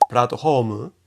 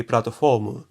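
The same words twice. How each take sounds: First: "Platform" as puratto hōmu, aspirated h; slow Japanese syllables for "Platform", h replacing f. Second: Slow Japanese syllables for "platform", keeping an f. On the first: Teacher contrasting two loanwords, Japanese with H. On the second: Teacher contrasting two loanwords, Japanese with F. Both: Shown as a demonstration. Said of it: "se escriben diferente".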